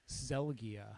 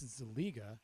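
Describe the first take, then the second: First: The 'i' vowel is heard after the G. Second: The 'i' vowel is heard before the G. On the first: The speaker calls it wrong. "my favorite way that people mispronounce my last name" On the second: The speaker calls it right. "It's Zeliga. The I is before the G"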